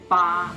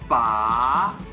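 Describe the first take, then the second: First: The pitch stays high and level. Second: The pitch rises upward. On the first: "it's the first tone. Because I'm using a high-pitched flat sound" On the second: "that would be the second tone"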